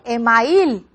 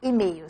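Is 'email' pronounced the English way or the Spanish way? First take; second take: Spanish; English. First: It is pronounced with Spanish sounds. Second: It keeps the foreign, English-like pronunciation. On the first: The borrowed word is adapted to Spanish pronunciation. The speaker calls it right. "se dice email" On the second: The borrowed word keeps its original pronunciation. The speaker calls it wrong. "no se dice email"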